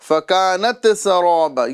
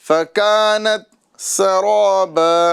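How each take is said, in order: First: The t sound bounces with an echoing release. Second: The t sound is held quietly without a bounce. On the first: The speaker calls it wrong. "लोग ता में कलकला करके पढ़ते हैं ... ये गलत तरीक़ा है" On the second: The speaker calls it right. "सही तरीक़ा ये है"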